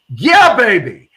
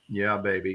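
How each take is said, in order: First: It is said with lively, energetic enthusiasm. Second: It is said flatly, without energy. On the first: The speaker truly embraces the feeling. The speaker calls it right. "You have to actually embrace it with your tonality and your enthusiasm" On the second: The words are said without real feeling. The speaker calls it wrong. "not not just go yeah, baby, because that's not going to get you there"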